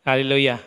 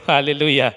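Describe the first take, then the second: No difference in how they are said.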